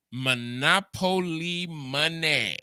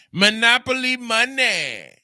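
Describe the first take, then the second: First: Said in the usual way. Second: Higher and louder insistence; emphatic loud repeat. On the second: Shown as a demonstration. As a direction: hammer it home louder.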